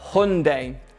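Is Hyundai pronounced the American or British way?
American. It is pronounced the American English way. "which is American English"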